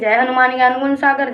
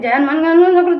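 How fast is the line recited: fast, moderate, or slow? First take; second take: moderate; fast. First: It is recited a little faster but still clear. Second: It is rushed so fast the words blur. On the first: The speaker calls it right. "थोड़ा तेज करिए" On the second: The speaker calls it wrong. "ऐसे भगाने लगते"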